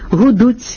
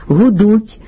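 First: The final consonant has a hissing ts sound. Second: The final consonant is a plain soft t. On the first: The speaker calls it wrong. "поширена серед певної публіки вимова" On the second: The speaker calls it right. "замість"

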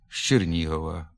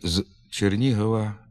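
First: It starts with a zh sound. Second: It starts with a plain z sound. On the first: "вимовляється ж" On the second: "На письмі"

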